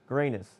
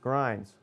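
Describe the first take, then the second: First: The name is said with two syllables, like Granus. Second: The name is said as one syllable, like grinds. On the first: The speaker calls it right. "His name is correctly pronounced Granus" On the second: The speaker calls it wrong. "It is incorrectly pronounced Grinds"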